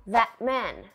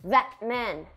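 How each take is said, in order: The two takes are said the same way.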